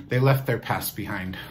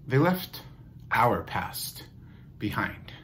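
First: Said in the usual way. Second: "They left", pause, "our past", pause, "behind"; weighted pauses around "our past", falling away on "behind"; deliberate pauses. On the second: Shown as a demonstration. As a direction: break it after "left" and "past", letting "behind" drop softly. Restated, broken up for weight.

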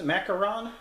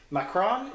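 First: "Macaron" in three syllables, mac-a-RON, as a question; alternative pronunciation. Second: "Macron" in two syllables, mac-RON, as a question; unsure pronunciation. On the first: Host tests another reading, "Macaron" as three syllables, mac-uh-RON. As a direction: try "Macaron" with a middle uh, questioning. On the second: Host unsure of the cafe's name, asks "Macron" as two syllables. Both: Shown as a demonstration. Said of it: "Is that how that's pronounced?".

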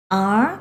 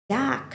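First: "dark" split into its sounds, "ar" then "k"; sounded out. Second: Said in the usual way. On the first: Shown as a demonstration. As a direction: spell out "dark" sound by sound for pupils. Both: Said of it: "คำนี้อ่านว่า".

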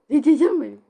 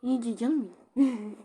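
First: Much louder, sing-song Cici canım benim; showing how she says it. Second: Said in the usual way. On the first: Shown as a demonstration. Repeating the chat line to viewers, loudly. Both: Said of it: "Bak nasıl söylüyorum".

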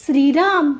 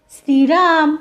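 First: Said in the usual way. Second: Calling after him. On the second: A narrator's reading. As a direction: call Shriram after him as he walks off. (Shriram अशी मोठ्याने हाक) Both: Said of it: "मुग्धाने हाक मारली".

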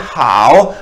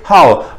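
First: हाओ with a dipping third tone; हाओ dipping down then rising. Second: हाओ with a sharp falling fourth tone. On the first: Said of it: "अगर third tone थी तो हम कहते हैं हाओ". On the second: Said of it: "ये क्योंकि फॉलिंग टोन है, बिल्कुल फोर्थ टोन है". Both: Shown as a demonstration.

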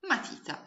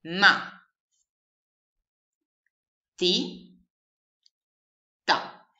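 First: Said in the usual way. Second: Ma, ti, ta spoken as three separate syllables with long pauses; slow classroom syllable spelling. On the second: Shown as a demonstration. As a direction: sound out each syllable of Ma ti ta. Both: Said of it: "formata da tre sillabe".

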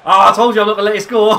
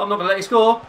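First: Fast, high gloating shout with laughter; triumphant shout. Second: Raised, high defiant call; tense defiance. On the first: Player gloating after blocking the shot, triumphant shout. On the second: Player defending against an opponent, tense defiant call. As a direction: warn the attacker off, high and loud. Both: Real, not acted.

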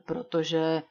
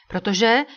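First: Said in the usual way. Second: A louder, rising cut-in on Protože; quickly interrupting. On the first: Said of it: "vpadl mu do řeči". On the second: A narrator's reading. Oil prince cutting Butler off quickly, hasty interruption. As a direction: jump in fast on Protože. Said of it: "vpadl mu do řeči rychle".

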